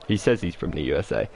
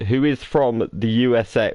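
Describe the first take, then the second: First: Doubtful aside with weight on "says"; "says" stressed, as if unconvinced; sceptical stress on SAYS. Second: Said in the usual way. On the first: Real, not acted. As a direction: lean on "says", dropping lower. Host doubts the stated origin.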